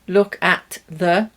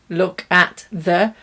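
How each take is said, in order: Both takes have the same delivery.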